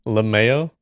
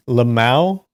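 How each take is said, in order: First: Lamao said luh-MAY-oh as a question; lamao pronounced. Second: Lamau said luh-MOW as a question; lamau pronounced. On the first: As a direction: ask Lamao with the ay-oh ending. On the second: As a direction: ask Lamau rhyming with now. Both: Shown as a demonstration.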